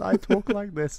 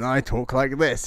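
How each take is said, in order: First: It is said in a high-pitched girlish voice. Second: It is said in a deep, gruff old voice.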